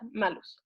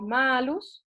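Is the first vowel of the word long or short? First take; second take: short; long. First: The first vowel is kept short. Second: The first vowel is held long. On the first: "uno diría la A cortita" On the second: "la A en la primera es doble, es larga"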